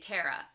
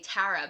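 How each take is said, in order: First: It is said with a general American vowel. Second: It is said with a New York vowel.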